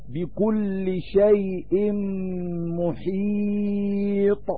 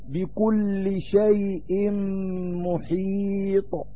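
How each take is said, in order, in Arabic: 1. الحركة قبل الحرف الأخير تُمَدّ طويلًا. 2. الحركة قبل الحرف الأخير قصيرة. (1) "بالطول" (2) "والقصر"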